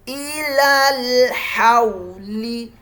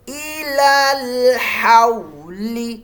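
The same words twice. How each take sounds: Both takes have the same delivery.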